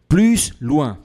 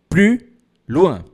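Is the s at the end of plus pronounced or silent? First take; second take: pronounced; silent. First: The s at the end of plus is pronounced. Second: The s at the end of plus is silent. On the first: The speaker calls it wrong. "a gente não pode pronunciar o S, por exemplo. Plus loin. Está errado" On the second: The speaker calls it right. "Então, a gente fala plus loin"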